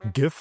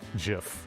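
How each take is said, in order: First: It begins with a hard g sound. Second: It begins with a soft j sound. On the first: "with a, a hard G" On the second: "that's one way that you pronounce it Jif, because the creator said so"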